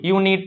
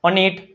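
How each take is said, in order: First: The word begins with a 'yoo' sound. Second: The word begins with an 'uh' vowel. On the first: The speaker calls it right. "શું થાય યુ" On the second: The speaker calls it wrong. "નથી વાંચતું ને"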